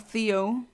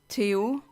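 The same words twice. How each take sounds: First: The name is said with an English pronunciation. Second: The name is said with a non-English pronunciation.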